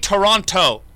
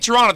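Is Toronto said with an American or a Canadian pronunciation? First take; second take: American; Canadian. First: It is said with an American pronunciation. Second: It is said with a local Canadian pronunciation. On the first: This is how outside broadcasters say the name. The speaker calls it wrong. "They say Toronto" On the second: This is how locals say the name. The speaker calls it right. "they don't even say Toronto"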